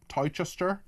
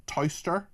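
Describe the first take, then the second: Both takes have the same delivery.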